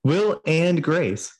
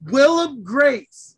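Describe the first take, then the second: First: "Will and Grace" slow, each word spaced; slow correction. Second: "Willem Grace" slow and louder; teasing mispronunciation. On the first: Real, not acted. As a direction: spell out "Will and Grace" slowly. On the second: Pretend. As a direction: stubbornly repeat "Willem" slowly. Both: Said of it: "Now you're just messing with me".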